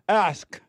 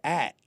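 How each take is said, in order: First: The K sound is clearly pronounced. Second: The K sound is not clearly pronounced. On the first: The speaker calls it right. "I make sure I hit that K by saying ask" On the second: The speaker calls it wrong. "I said act"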